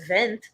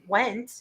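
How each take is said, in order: First: The name is given a German pronunciation. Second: The name is given an English pronunciation.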